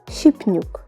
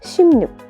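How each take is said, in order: First: A p sound comes before an added n. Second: An m sound comes before an added n. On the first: The speaker calls it wrong. "So it'll be something like shipnuk. But of course it is incorrect" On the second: The speaker calls it right. "So this word will be pronounced as shimnuk"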